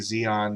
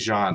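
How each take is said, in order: First: The name is said as two syllables, 'zee-on'. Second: The name is said as one syllable, 'jeen'. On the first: The speaker calls it wrong. "I keep wanting to say Xeon" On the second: The speaker calls it right. "That's hard for me to say Jean"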